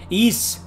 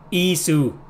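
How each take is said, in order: First: The name ends on the s sound. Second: The name ends with an added vowel.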